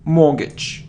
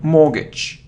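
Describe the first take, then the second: Both takes have the same delivery.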